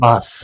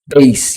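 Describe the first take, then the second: First: The word is said the Ukrainian way. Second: The word is said the English way. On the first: The speaker calls it wrong. "not bass. we just call it bass in you know in Ukrainian" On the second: The speaker calls it right.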